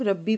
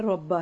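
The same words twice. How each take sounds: First: "रब्बी" ending in an ee sound; mistaken vowel ending. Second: "रब्बा" ending in an open a; corrected vowel ending. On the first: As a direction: say "रब्बी" with a final long i. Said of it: "कुछ लोग रब्बी पढ़ रहे हैं". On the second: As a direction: say "रब्बा" with fatha on the b. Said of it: "बा पे ज़बर आती है". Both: Shown as a demonstration.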